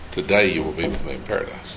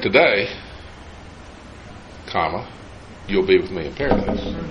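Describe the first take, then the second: First: 'Today' runs straight on without a break. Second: There is a break right after 'today'.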